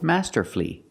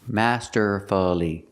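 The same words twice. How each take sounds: First: The word has three syllables, ending in flee. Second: The word has four syllables, ending in fully. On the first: The speaker calls it right. "We pronounce it with three syllables" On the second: The speaker calls it wrong. "Masterfully is not correct. It's not four syllables"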